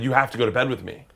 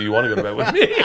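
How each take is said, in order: First: Said in the usual way. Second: "You wanna go to bed with me?" with a rise on "me", laughing; asked as a question. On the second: Shown as a demonstration. Corrected wording for his companion, "You wanna go to bed with me?" as a laughing question. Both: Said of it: "as opposed to".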